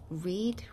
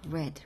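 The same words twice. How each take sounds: First: It is pronounced as the present-tense form. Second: It is pronounced as the past-tense form. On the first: The action happens now. "첫 번째 현재일 경우, 현재형에는 read라고 발음을 하고" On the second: The action happened in the past. "두 번째, 세 번째는 다 read로 발음이 됩니다"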